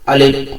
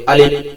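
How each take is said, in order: The two takes are said the same way.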